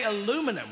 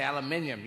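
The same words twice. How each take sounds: First: "aluminum" as a-LOO-mi-num; American pronunciation. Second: "aluminium" as al-yuh-MIN-ee-um; British pronunciation. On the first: Comic showing Americans their word, American "aluminum" as a-LOO-mi-num. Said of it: "now, you say aluminum". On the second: Comic giving the British word, "aluminium" as al-uh-MIN-yum. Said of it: "we say aluminium". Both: Shown as a demonstration.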